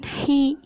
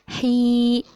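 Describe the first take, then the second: First: The vowel is short, one beat. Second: The vowel is held long. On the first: The speaker calls it wrong. "bukan hi satu ketukan" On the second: The speaker calls it right. "tapi hi dipanjangkan"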